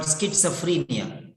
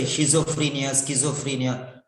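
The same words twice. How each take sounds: First: Schizophrenia as skit-suh-FREE-nia; correct pronunciation. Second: Schizophrenia as shee-zo-free-nia, then skee-zo-free-nia; common mispronunciations. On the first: Shown as a demonstration. Teacher corrects a commonly mispronounced word, schizophrenia as skit-suh-free-nia. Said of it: "It is called". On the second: Retold or imitated. Teacher quotes learners' mistakes, schizophrenia with shizo and skizo. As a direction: misread schizophrenia with a zo in the middle. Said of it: "Many people say schizophrenia".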